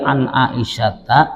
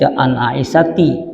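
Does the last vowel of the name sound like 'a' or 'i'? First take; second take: a; i. First: The name ends with an 'a' vowel. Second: The name ends with an 'i' vowel. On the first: The speaker calls it right. "Dibacanya fathah" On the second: The speaker calls it wrong. "Jangan dibaca an Aisyati"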